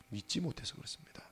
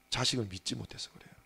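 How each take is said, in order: First: Breathy whispered echo of 못해서 with a rise; hushed confiding aside. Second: Said in the usual way. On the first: Real, not acted. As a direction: drop to a whisper on 믿지 못해서 그렇습니다.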